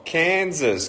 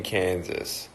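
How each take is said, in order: First: "Kansas" called out high and bright; high excited call of "Kansas"; excited shout-out. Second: "Kansas" said low and much softer; soft repeat. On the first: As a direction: greet the state eagerly. Calling out viewer locations. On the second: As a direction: murmur the name back gently. Repeating location softly. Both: Real, not acted.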